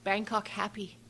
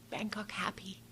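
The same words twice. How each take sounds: First: Said in the usual way. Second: Breathy whispered echo; soft whispered repeat of the driver. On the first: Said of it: "He kept saying". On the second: Retold or imitated. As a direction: whisper it under your breath. Repeating the cab driver's words.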